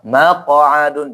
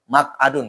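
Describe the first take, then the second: First: The consonants are pronounced with a strongly exaggerated bounce. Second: The consonants are pronounced lightly and naturally. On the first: The speaker calls it wrong. "Jangan uh, maq'adun, jangan. Itu maksudnya terlalu kentara" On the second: The speaker calls it right. "boleh dibaca maq'adun"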